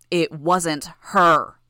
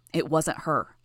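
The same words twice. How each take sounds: First: "her" drawn out and loud; slow down and punch "her" hard; emphatic insistence. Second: Said in the usual way. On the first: A narrator's reading. Denial repeated with force.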